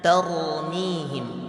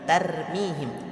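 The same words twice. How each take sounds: First: The r sound is heavy and thick. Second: The r sound is light and thin. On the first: The speaker calls it right. "ra-nya dibaca tebal" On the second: The speaker calls it wrong. "bukan tarmihim"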